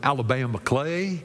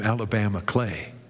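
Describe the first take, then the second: First: It is said in a Southern American accent. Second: It is said in the speaker's ordinary accent.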